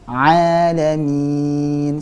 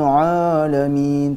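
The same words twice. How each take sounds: First: The opening ain sound is light and thin. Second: The opening ain sound is heavy and thick. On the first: The speaker calls it right. "huruf ain itu tipis" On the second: The speaker calls it wrong. "bukan rabbil alamin. Terkadang ada yang membaca seperti itu"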